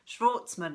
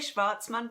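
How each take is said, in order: First: The name is pronounced with a North American sound. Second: The name is pronounced with a Swiss-German sound. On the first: "I think you guys uh, in uh, North America would pronounce it" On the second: "I say Schwartzman because I have a, a Swiss-German background"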